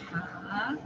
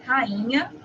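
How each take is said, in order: First: "rainha" broken into separate, drawn-out vowels, softer; "rainha" syllable by syllable, as ra-i-nha; hiatus split. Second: Said in the usual way. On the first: Shown as a demonstration. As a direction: pull the A and I apart in "rainha". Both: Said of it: "vamos separar o I e o A".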